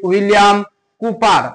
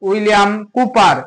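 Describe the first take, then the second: Both takes have the same delivery.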